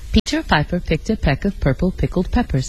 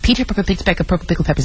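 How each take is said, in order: First: It is said at ordinary speed. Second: It is said extremely fast.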